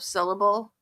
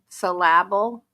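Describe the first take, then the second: First: The stress falls on the normal syllable. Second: The stress falls on an unusual syllable. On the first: The speaker calls it right. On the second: The speaker calls it wrong.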